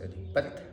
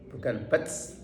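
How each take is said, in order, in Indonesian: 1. T di akhir berakhir bersih tanpa desis. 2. T di akhir berakhir dengan desis seperti s. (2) "Bukan bats ... makhrajnya ta itu pojok lidah dengan pojok gigi"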